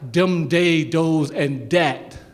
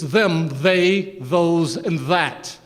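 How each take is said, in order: First: The words begin with a d sound. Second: The words begin with a th sound. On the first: The speaker calls it wrong. "it's not" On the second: The speaker calls it right. "That's how you pronounce the word"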